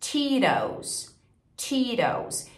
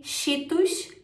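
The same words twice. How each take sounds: First: "Cheetos" as "CHEE-rous", tapped R; falling English "Cheetos"; English flapped T. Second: "Cheetos" as "shítus", rising; Portuguese-style "Cheetos"; Brazilian pronunciation. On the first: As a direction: model American "Cheetos", T softened to a tap. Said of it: "reduzido pra um R". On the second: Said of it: "outro detalhe legal de pronúncia". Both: Shown as a demonstration.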